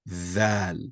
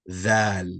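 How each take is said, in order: Both takes have the same delivery.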